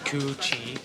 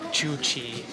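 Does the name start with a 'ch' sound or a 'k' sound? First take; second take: k; ch. First: The name begins with a 'k' sound. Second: The name begins with a 'ch' sound. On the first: The speaker calls it right. "It's supposed to be Ku Chi" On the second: The speaker calls it wrong. "I think that we're saying Chu Chi wrong"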